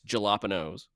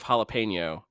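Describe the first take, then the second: First: The word is pronounced in a deliberately distorted way. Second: The word is pronounced in its usual way. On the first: "two that I like to do" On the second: "instead of jalapeno"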